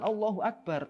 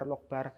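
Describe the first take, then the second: First: It is said slowly with every syllable complete. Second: It is said hurriedly, clipping the opening syllables. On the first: The remembrance is done with patience. The speaker calls it right. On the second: The remembrance is done impatiently and loses meaning. The speaker calls it wrong.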